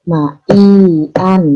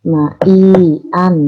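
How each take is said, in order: No difference in how they are said.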